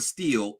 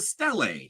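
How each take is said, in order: First: The word is said like 'steel'. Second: The word is said like 'stee-lee'. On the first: The speaker calls it wrong. "she keeps saying steel" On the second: The speaker calls it right. "It's a stele"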